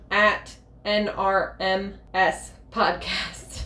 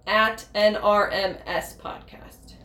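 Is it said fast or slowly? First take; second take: slowly; fast. First: It is said slowly and clearly. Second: It is said fast and slurred.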